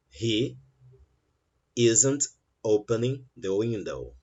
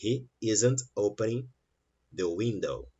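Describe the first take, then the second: First: Slow, every word spelled out; slow full sentence. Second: Quicker, words run together; quicker run-through. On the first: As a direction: say it slowly and carefully. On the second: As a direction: say it in less time. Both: Shown as a demonstration. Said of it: "Você consegue falar uma frase com menos tempo".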